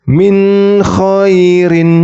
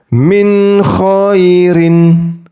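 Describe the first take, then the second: The two takes are said the same way.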